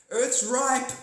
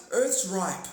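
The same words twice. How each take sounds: First: Higher, louder announcer-ish alien voice; mock alien message. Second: Said in the usual way. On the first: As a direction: proclaim it like a cosmic broadcast. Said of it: "Don't forget to like and share".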